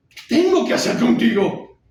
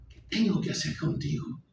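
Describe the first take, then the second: First: Desperate high-pitched shout; loud, enraged cry of helplessness; irate. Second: Anger choked down, voice dropping; exasperated question, reined in after shouting; irate. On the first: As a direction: explode at your father at full volume. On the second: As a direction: seethe helplessly at your father, held back. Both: Acted. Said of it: "él responde iracundo".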